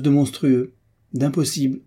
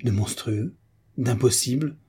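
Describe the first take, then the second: First: MONSTRUEUX and D'IMPOSSIBLE pitched up and pressed; emphatic announcement. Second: Understated stunned disbelief; dumbfounded echo. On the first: Announces something outrageous to the housekeeper. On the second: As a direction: repeat it in mild bewilderment, tone rising at the end. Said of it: "tout ébahie". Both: A narrator's reading.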